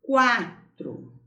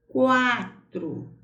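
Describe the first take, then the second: First: Quatro said slowly and clearly, u barely heard; sounding it out. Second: Quatro with a clear kw glide. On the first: Teacher to pupils, carefully modelling quatro. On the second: Teacher to pupils, stressing the u glide in Quatro. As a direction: say Quatro so the u semivowel shows. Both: Shown as a demonstration.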